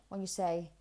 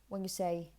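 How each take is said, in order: The two takes are said the same way.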